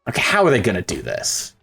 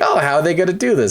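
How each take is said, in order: First: It sounds worried and doubtful. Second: It sounds excited and eager.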